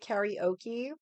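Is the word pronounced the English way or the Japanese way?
English. It is said with an English pronunciation. The speaker calls it wrong. "Because people say karaoke"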